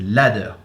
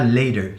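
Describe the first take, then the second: First: The first vowel is an open 'a' sound. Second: The first vowel is not an open 'a' sound. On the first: The speaker calls it right. "Ce A se prononce A, c'est ladder" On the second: The speaker calls it wrong. "c'est pas ladder"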